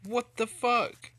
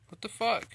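First: Slow, loud drawn-out yell; angry shout. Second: Sharp angry yell, higher. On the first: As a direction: stretch out the furious shout. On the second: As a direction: shout it in disbelief. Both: Real, not acted. Glitch angers gamer.

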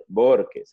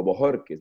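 First: "Borges" said as BOR-kes; two-syllable surname reading. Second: "Bojorques" said as bo-HOR-kes; three-syllable surname reading. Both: Shown as a demonstration. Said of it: "no sé cómo se pronuncia".

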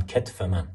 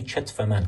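First: کتف starting with a hard k, ketf; تلفظ با کاف. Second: چتف starting with ch, chetf; تلفظ لهجه با چ. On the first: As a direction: say کتف with k in place of ch. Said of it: "یا همون کتف". (کتف با «ک» اول، تلفظ معمول) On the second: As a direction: say چتف with a ch in place of k. (چتف با «چ» اول، به لهجه) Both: Shown as a demonstration.

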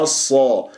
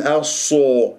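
First: الصا with a heavy open a, lips unrounded; unrounded heavy sad. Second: الصو with sad's vowel rounded toward o; rounded-lip mistake. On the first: Teacher shows the correct sound, lips unrounded. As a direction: keep الصا open, not o. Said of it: "لا تكور الشفاه". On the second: Teacher shows what not to say, lips rounded. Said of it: "ولا أقول الصو". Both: Shown as a demonstration.

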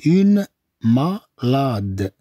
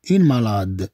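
First: Very slow, broken-up "Une malade"; drawn-out teaching pronunciation; syllable by syllable. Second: Said in the usual way. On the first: Shown as a demonstration. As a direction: stretch "Une", then split "malade". Slow take for learners.

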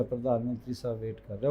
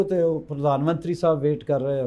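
First: Quiet lower echo. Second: Said in the usual way. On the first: Retold or imitated. Singer tells interviewer the prime minister waited, repeating it softer and lower.

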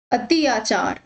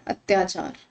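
First: अति आचार as two separate parts; split pronunciation. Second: अत्याचार run together as one word; lower, softer blended अत्याचार; joined pronunciation. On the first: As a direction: break the word into अति plus आचार. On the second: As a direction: join ति and आ into त्या in अत्याचार. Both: Shown as a demonstration. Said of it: "क्या कह रहे हैं".

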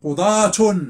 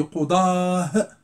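First: قضاة said loudly as "qudaatun"; final t sounded. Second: قضاه drawn out to a final h; ta pronounced as ha. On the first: Teacher showing the full form, قضاة with sounded t. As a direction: punch out قضاة with t and "un" ending. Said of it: "ولكن يمكن أن أنطقها هاء". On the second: Teacher showing the pause form, قضاه ending in h. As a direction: say قضاه slowly, ending "aah". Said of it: "يمكن أن أنطقها هاء". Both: Shown as a demonstration.

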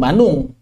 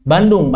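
First: "Bandung" with the d lost, as "Banung"; D dropped with nasal. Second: Said in the usual way. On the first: Shown as a demonstration. Teacher showing Sundanese city name, "Bandung" with no d. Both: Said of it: "Menghilangkan dal dengan gunnah".

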